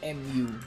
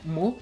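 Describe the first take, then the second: First: It is said as two separate letter names. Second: It is said as a single syllable word. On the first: It is read as initials. "I do hear people saying M U" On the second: It refers to the Greek letter. "it was referring to the Greek letter, like mu"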